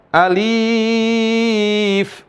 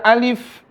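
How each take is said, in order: First: ALIF with the "li" stretched very long; wrong elongation. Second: Said in the usual way. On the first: Shown as a demonstration. Teacher showing what not to read, overlong "alif". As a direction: drag out "aliiif" on a level note. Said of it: "bukan dibaca alif". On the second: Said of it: "Jadi dibaca alif".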